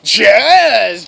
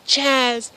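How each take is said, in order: First: The name is screamed loudly and manly. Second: The name is said low and subdued. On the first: The greeting shows great enthusiasm. The speaker calls it right. "I just start screaming" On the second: The greeting shows little enthusiasm. The speaker calls it wrong. "I say it with a lower voice"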